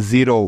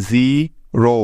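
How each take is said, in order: First: Said in the usual way. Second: জি and রো said apart with a pause between; syllable by syllable. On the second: Shown as a demonstration. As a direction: split the word into জি, pause, রো. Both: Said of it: "মিলে হয়ে যাবে".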